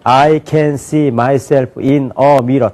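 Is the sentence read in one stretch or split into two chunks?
one stretch. The sentence is read straight through without a break. The speaker calls it wrong. "다 읽고 번역하는데"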